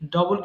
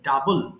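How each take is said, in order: First: The first vowel is a rounded 'o' sound. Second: The first vowel is an open 'uh' sound. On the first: The speaker calls it wrong. "ডবল কিন্তু সঠিক উচ্চারণ নয়।" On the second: The speaker calls it right. "কি বলতে হবে?"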